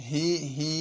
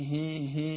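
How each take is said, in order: Both takes have the same delivery.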